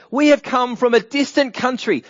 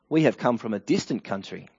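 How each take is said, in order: First: High, loud proclamation from a travelling envoy; acted plea. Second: Said in the usual way. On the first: Gibeonite envoy pleads to Joshua for a treaty, acted plea. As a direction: announce it grandly, pitched well up.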